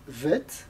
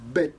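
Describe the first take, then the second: First: It begins with a soft v sound. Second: It begins with a hard b sound. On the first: The letter has no dot inside. "si elle n'a pas de point, elle se prononce vet" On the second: The letter has a dot inside. "si elle a un point dedans, elle se prononce bet"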